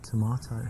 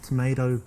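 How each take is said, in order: First: "tomato" as "to-MAH-to" in an English accent. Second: Said in the usual way. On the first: Shown as a demonstration. Man flirting with a woman using his accent, English accent. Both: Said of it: "with my English accent".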